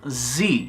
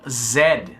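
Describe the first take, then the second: First: The letter is said the American way. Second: The letter is said the Canadian way. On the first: "Os americanos falam Z" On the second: "Já os canadenses, assim como os britânicos, falam Z"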